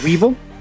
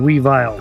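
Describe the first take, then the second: First: The ending sounds like the end of 'evil'. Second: The ending sounds like the word 'vile'. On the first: "supposed to sound the same and go Weevil" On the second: "Because Vile being dark"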